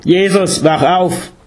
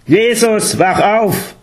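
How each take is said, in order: First: Higher, louder calling out; urgent wake-up call. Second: High-pitched, commanding shout to wake up; louder, imperative call. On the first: Guru rousing the meditating Jesus, urgent call. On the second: Guru rousing Jesus a second time, louder and imperative. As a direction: order him awake, voice raised high. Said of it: "lauter und imperativ". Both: A narrator's reading.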